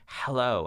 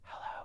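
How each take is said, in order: First: It is whispered forcefully and loudly. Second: It is whispered quietly. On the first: "then to whisper it very loudly" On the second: "then to whisper it"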